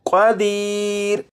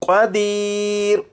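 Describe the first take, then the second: First: The word stops on a bare final r. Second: The same.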